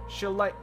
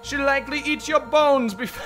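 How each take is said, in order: First: It is said in a plain voice. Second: It is said in a put-on goblin voice.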